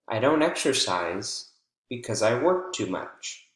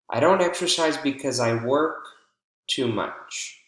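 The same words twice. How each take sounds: First: There is a pause after the word exercise. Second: There is a pause after the word work. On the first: The speaker calls it right. "or pause between exercise and because" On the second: The speaker calls it wrong. "we have a pause between work and to"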